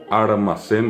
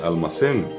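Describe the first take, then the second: First: An r sound comes before the m. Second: An l sound comes before the m. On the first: "armacén en vez de almacén" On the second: "en vez de almacén"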